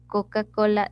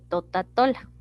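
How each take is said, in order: First: The syllables start with 'k' sounds. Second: The syllables start with 't' sounds. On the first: The speaker calls it right. "en vez de decir el niño Coca-Cola" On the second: The speaker calls it wrong. "está sustituyendo"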